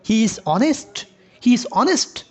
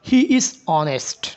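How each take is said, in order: First: "He is honest" lifted into a question with the pitch rising; rising question tune. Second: Said in the usual way. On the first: Shown as a demonstration. Teacher turning a statement into a question by tune. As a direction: say the statement as if asking. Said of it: "তখন আপনাকে বলতেছে কি". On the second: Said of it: "question mark দেওয়া আছে".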